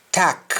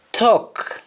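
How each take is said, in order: First: TACK, for talk, as open "tahk"; Jamaican pronunciation. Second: English-style round vowel in TALK; English pronunciation. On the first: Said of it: "we say al". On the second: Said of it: "instead of saying all". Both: Shown as a demonstration.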